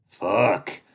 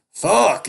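First: Loud swear, pitch falling; angry curse. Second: Very high, very loud shriek; shrieking curse. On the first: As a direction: spit out the curse. Duke curses, searching the house. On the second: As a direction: shriek it at the top. Duke curses louder. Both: Acted.

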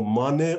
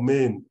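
First: "Mane" said as MAH-nay; two-syllable pronunciation. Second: "Main" said as one syllable, rhymes with rain; one-syllable pronunciation. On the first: Teacher asking class how to pronounce it, "Mane" as MAH-nay. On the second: Teacher offering class the other option, "Main" as one syllable MAYN. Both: Shown as a demonstration. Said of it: "how to pronounce it".

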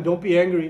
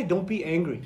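First: "Don't be angry" snapped out louder like a scolding; mock stern command. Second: Said in the usual way. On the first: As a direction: bark "Don't be angry" at an upset friend. Telling an angry person to calm.

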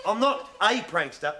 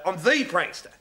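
First: "a" stressed as a full "ay". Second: "the" stressed as "thee". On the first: Prankster corrects his mate, stressing "a" as "ay". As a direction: lean on "a", pronounced "ay". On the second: Prankster boasts to his mate, stressing "the" as "thee". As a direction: lean on "the", pronounced "thee". Corrects friend, contrasting the with a. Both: Acted.

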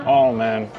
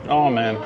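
Both takes have the same delivery.

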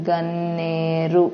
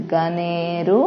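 First: గన్నేరు slow, with the nn pressed and held; ఒత్తి పట్టి, held nn. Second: గనేరు said lightly with a single n; light, no ఒత్తు. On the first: Teacher showing pupils the pressed form, slow held nn. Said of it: "ఒత్తి పట్టి పలకాలి". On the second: Teacher showing pupils the light form, unstressed. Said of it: "ఒత్తు లేదు కాబట్టి దీన్ని తేలిగ్గా పలకాలి". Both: Shown as a demonstration.

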